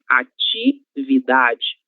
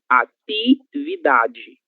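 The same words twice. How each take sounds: First: The t before i sounds like ch. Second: The t before i sounds like hard t. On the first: This is the usual form in most of the country. "esse nosso ti, ele será pronunciado com o som ti" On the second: This is a regional form from parts of the Northeast. "existem regiões do Brasil que falam ati"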